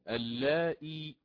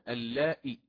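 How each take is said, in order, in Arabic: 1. بعد الهمزة كسرة طويلة. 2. بعد الهمزة كسرة قصيرة دون ياء. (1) "يقرأ اللائي مثل ما هي مكتوبة أمامكم" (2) "بالكسر ولكن دون ياء بعدها"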